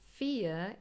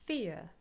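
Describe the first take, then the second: First: It is said with a British accent. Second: It is said with an American accent. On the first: "in British English" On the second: "in American English"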